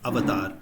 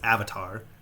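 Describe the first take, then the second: First: It is said with an Indian pronunciation. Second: It is said with an English pronunciation. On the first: The speaker calls it right. "but it's pronounced avatar" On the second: The speaker calls it wrong. "you guys pronounce it as avatar"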